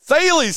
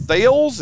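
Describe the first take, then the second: First: Thales in two syllables, "THAY-leez"; corrected pronunciation. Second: Thales as one syllable, "thales" rhyming with "sails"; guessed pronunciation. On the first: Host echoes co-host's answer, Thales corrected to "THAY-leez". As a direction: repeat Thales high and emphatic as "THAY-leez". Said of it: "how do you pronounce T H A L E S". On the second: Host asks his co-host how to say it, Thales guessed as one-syllable "THAYLZ". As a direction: ask Thales tentatively as "THAYLZ". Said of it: "how do you pronounce it". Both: Real, not acted.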